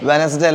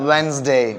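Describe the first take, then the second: First: It has an extra middle vowel, three syllables. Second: The middle vowel is dropped, two syllables. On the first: The speaker calls it wrong. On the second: The speaker calls it right.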